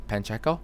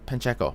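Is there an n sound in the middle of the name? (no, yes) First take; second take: yes; yes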